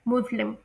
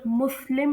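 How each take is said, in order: First: मुस्लिम with s voiced as z; corrected pronunciation. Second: मुस्लिम with a hissed s in the middle; common pronunciation. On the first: Teacher corrects the word for students, z pronunciation. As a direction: say मुस्लिम as muz-lim. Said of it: "एस को जी की तरह pronounce". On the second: Teacher mimics the usual local saying, common pronunciation. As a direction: say मुस्लिम as mus-lim. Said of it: "जिसे हम लोग मुस्लिम pronounce करते हैं". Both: Shown as a demonstration.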